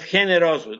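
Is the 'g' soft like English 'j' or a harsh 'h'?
harsh h. The 'g' sounds harsh and throaty, like 'h'.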